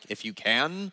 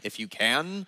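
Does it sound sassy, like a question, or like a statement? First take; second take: statement; statement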